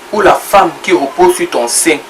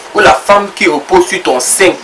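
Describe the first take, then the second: Both takes have the same delivery.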